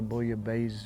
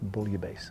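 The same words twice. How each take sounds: First: The double S is said as a Z. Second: The double S is said as an S. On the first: The speaker calls it wrong. "you might hear some people say" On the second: The speaker calls it right. "the proper pronunciation is"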